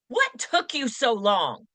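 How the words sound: It sounds impatient and annoyed.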